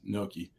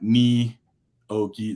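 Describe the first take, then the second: First: It sounds like 'no-key', with two syllables. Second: It sounds like 'nee-oh-key', with three syllables. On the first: The speaker calls it right. "I always pronounce it is gnocchi, like K N O W K E E" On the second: The speaker calls it wrong. "not ni oki. That just drives me up a wall"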